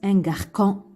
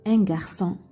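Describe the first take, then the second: First: The consonant before the last vowel is a K. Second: The consonant before the last vowel is an S. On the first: The speaker calls it wrong. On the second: The speaker calls it right.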